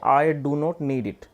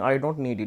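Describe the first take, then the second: First: The words 'do not' are said in full. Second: The words 'do not' are contracted to 'don't'. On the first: "आप इसको ऐसे भी कह सकते हैं" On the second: "आप डू नॉट को मिला के डोंट भी ऐसे बोल सकते हैं"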